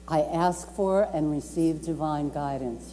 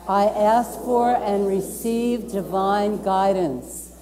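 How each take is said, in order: First: Said in the usual way. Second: Slow, deliberate affirmation, each word spaced; slow group affirmation. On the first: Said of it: "And I'm gonna say it again". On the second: Real, not acted. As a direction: lead the room through it slowly, as if reciting a creed. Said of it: "You wanna say that with me?".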